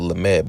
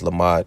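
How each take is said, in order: First: The second vowel sounds like 'e'. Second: The second vowel sounds like 'a'. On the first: This is how others name the letter. The speaker calls it wrong. "they call it lamed" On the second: This is the true name of the letter. The speaker calls it right. "but it's lamad"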